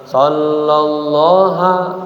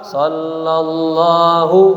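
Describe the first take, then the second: First: The word ends with an 'a' vowel. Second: The word ends with a 'u' vowel. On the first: The speaker calls it wrong. "jangan sallallaha" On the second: The speaker calls it right. "Sallallahu fi'il pa fa'il"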